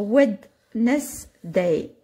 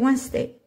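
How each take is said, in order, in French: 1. Chaque lettre se prononce comme elle est écrite. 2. Il se dit comme on parle normalement en anglais. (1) "Vous allez l'apprendre Wednesday" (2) "En anglais, c'est Wednesday"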